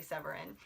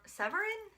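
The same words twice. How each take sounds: First: Said in the usual way. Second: "Severin?" tried the French way, pitched high like a question; a tentative French "Severin?", rising high; unsure French try. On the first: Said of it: "so I'm gonna say Severin". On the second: Shown as a demonstration. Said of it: "you gotta say it with a French accent".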